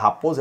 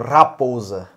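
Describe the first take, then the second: First: The R sound is said plainly. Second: The R sound is drawn out heavily. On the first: This is the ordinary way to say the word. "se você fosse falar raposa" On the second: This is how the family's old dialect said it. "eles falam raposa"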